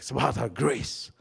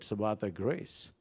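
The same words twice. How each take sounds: First: It is said loudly and urgently. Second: It is said calmly, without urgency.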